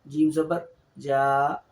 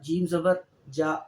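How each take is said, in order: First: The final vowel is lengthened. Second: The final vowel is short.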